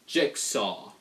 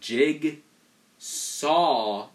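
First: The first syllable ends in a 'ks' sound. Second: The first syllable ends in a 'g' sound. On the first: "Like J-I-X" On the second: "You can't say the G and then follow it up by with an S"

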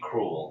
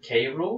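First: The K blends into one syllable, like cruel. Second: The K is said as a separate letter. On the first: "or is it supposed to be Cruel?" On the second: "Is it K-Rool"

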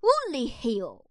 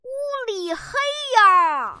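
First: It is said at a quick pace. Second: It is said at a slow pace.

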